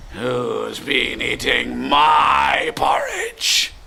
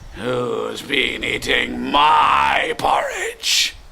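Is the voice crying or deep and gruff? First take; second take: deep, gruff; deep, gruff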